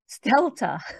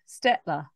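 First: The name is said with l before t. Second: The name is said with t before l. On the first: The speaker calls it right. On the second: The speaker calls it wrong.

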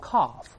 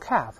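First: It is said in a British accent. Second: It is said in an American accent. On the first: "英国人读成calf" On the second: "美国人读成calf"

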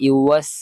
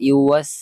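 No difference in how they are said.

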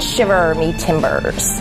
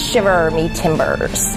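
First: The R sounds are drawn out and held. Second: The R sounds are drawn out and held.

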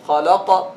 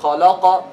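Both takes have the same delivery.

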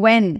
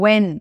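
No difference in how they are said.

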